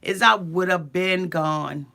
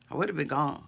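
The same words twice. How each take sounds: First: I pressed firmly and drawn out, slow; slow, pointed: I would have been gone; stress on I. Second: Low, much softer echo of I would have been gone; under-the-breath repeat; quiet repeat. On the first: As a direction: lean on the word I. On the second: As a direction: murmur it again to yourself. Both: Real, not acted. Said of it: "the only difference between me and Jenny".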